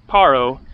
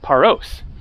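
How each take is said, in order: First: The name ends without a final s sound. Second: The name ends with a final s sound. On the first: This is the Greek announcement of the name. "they don't pronounce it with the S in Greek" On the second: This is the English announcement of the name. "then they will announce in English"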